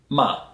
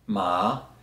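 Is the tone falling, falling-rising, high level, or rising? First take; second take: falling; rising. First: The pitch drops sharply from high to low. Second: The pitch rises from middle to high. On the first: It means curse. "if you say it in a falling tone" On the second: It means sesame. "If I use a rising tone"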